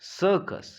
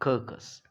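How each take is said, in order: First: The first c is s, the second c is k. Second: The first c is k, the second c is k. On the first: The speaker calls it right. "That is why it is सर्कस" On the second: The speaker calls it wrong. "It is not कर्कस"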